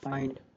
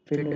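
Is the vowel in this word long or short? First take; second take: long; short. First: The vowel is long, like 'eye'. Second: The vowel is short, like in 'fin'. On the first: The speaker calls it right. "इसको long बोल रहे हैं" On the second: The speaker calls it wrong. "फिंड नहीं बोलेंगे"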